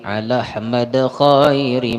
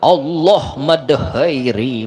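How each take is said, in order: First: It is split as 'ala' then 'Ahmad'. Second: It is split as 'Allah' then 'mad'. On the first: The speaker calls it right. "Ala Ahmad bacaannya" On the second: The speaker calls it wrong. "Ini banyak orang kampung nah Allah Allah"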